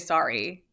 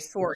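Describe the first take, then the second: First: It is said with an American accent. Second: It is said with a Canadian accent. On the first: "We say sorry" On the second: "but Canadians say sorry"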